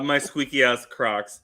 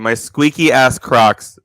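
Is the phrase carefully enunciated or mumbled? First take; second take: mumbled; enunciated. First: The words run together and are hard to catch. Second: Each word is spoken slowly and distinctly.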